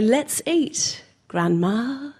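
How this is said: There is a short pause before grandma.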